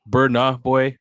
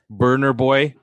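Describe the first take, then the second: First: The first word ends without an R sound. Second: The first word ends with a hard R sound. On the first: The speaker calls it right. "I apologize" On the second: The speaker calls it wrong. "don't add the the hard R"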